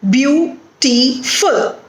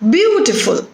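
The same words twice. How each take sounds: First: "beautiful" in three slow, separate beats; "beau... ti... ful", gaps between the pieces; broken into syllables. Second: BEAU-tiful, one word with a strong BEAU; "beautiful" joined up, first syllable prominent; stress on first syllable. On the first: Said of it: "Three syllables are there in this word". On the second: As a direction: punch the start of "beautiful", then fall away. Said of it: "the stress is on the first syllable". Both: Shown as a demonstration.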